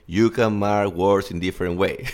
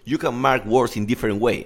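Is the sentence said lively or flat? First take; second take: flat; lively. First: It is said flat and monotonous. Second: It is said with varied, lively emphasis.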